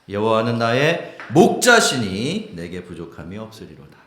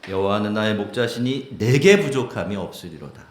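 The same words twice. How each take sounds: First: The stress falls on 목자시니. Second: The stress falls on 내게.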